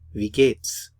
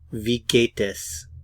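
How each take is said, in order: First: Es is reduced and joined onto geht. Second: Es is said as a separate full syllable. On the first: "We often contract the gate and the s to geht's"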